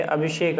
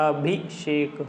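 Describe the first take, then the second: First: Said in the usual way. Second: Abhishek broken into slow parts, falling at the end; syllable by syllable. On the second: Shown as a demonstration. Teacher shows how it is written, syllable by syllable. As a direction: spell out Abhishek by sound, part by part. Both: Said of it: "अभिषेक ऐसे लिखा जाता है".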